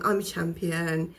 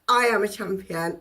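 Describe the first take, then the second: First: It is said flatly with low energy. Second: It is said loudly with high energy. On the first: The speaker does not believe it. The speaker calls it wrong. "it doesn't sound believable" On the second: The speaker truly believes it. The speaker calls it right. "high vibe, high energy thing going on"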